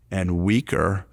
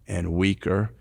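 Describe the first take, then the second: No difference in how they are said.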